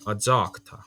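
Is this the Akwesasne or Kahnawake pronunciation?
Kahnawake. It has a za-like cluster, Kahnawake style.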